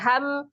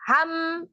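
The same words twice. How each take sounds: First: The vowel is level in pitch and short. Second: The vowel is raised in pitch and lengthened. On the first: The speaker calls it right. "Harusnya ham" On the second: The speaker calls it wrong. "kekeliruannya pertama menaikkan ha, menambah panjangnya ha"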